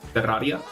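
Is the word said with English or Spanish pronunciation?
Spanish. It is said with strong Spanish r sounds. "in Spanish is Terraria"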